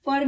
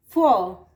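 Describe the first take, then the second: First: "फॉर" with the final r pronounced; wrong, R sounded. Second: "फॉर" loud, ending on long aw, r silent; British r-less for. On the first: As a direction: close "फॉर" on an audible r. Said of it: "फॉर नहीं". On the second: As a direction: correct "फॉर" by dropping its r. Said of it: "फॉर नहीं, फॉर". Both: Shown as a demonstration.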